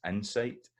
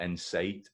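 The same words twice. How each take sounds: First: Insight stressed at the start, "sight" keeping its full vowel; clear I sound. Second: Insight said as the version to avoid; wrongly weighted insight. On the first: Teacher correcting, insight with the I still heard. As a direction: lift insight, first syllable strong, second unreduced. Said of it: "the I sound is still in there". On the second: Teacher showing what it is not, insight said the other way. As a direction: give insight as the counterexample, level tune. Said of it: "It's not insight". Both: Shown as a demonstration.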